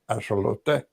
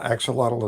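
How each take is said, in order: First: It uses the Mexican-style pronunciation. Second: It uses the common English pronunciation. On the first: The speaker calls it right. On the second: The speaker calls it wrong.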